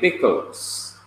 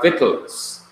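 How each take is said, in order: First: It begins with a B sound, Jamaican-style. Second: It begins with a V sound, English-style.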